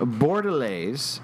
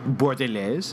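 First: It is said with an English-style pronunciation. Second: It is said with a French-style pronunciation.

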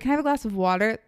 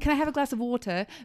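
First: It is said in an American accent. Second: It is said in a British accent.

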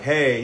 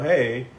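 First: The greeting sounds rude and harsh. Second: The greeting sounds nice and friendly.

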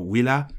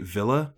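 First: The word has a Latin pronunciation. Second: The word has an English pronunciation.

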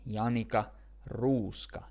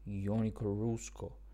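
First: The name is said with full Finnish sounds. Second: The name is said with English-style sounds. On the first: The speaker calls it right. "it's Janika Ruuska. If you want to really get the most out of your Finnish pronunciation, you have to use your whole face and your whole mouth" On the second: The speaker calls it wrong. "it's not Janika Ruuska"

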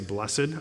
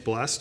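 First: The word is given its formal, careful pronunciation. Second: The word is given its casual, everyday pronunciation. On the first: This is how it is said when teaching. "whenever I start teaching, I always say blessed" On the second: This is how it is said in ordinary talk. "whenever I talk normally, it's blessed"

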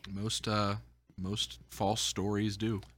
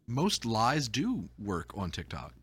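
First: It is said in a blunt, dismissive tone. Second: It is said in a pleasant, friendly tone.

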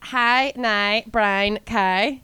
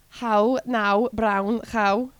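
First: It is said in a Belfast accent. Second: It is said in a Liverpool accent.

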